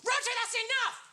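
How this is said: It is shouted loudly and angrily.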